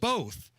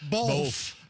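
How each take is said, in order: First: The word ends with a plain th sound. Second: The word ends with an l and f sound. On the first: The speaker calls it right. "The word is both. B O T H" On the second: The speaker calls it wrong. "B O L F"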